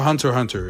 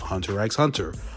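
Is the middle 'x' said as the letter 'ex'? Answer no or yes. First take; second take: no; yes. First: The middle x is not said as ex. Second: The middle x is said as the letter ex.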